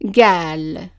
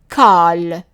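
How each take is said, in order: First: The word starts with a g sound. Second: The word starts with a k sound. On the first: This is the form used where qaf becomes g. "the qaf is pronounced as a g sound" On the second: This is the form used in a small part of Palestine. "that small part of Palestine"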